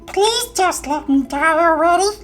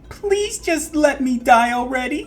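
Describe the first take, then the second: First: It is said in a high, squeaky voice. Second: It is said in a normal speaking voice. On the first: The speaker calls it right. "Much better" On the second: The speaker calls it wrong. "I told you to do that in the squeaky voice"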